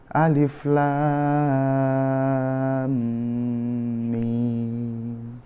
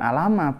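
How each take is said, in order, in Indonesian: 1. Setiap nama huruf diucapkan terpisah, satu per satu. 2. Hurufnya menyambung menjadi satu kata pendek. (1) "Jadi bacanya itu Alif Lam Mim" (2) "Bukan alama"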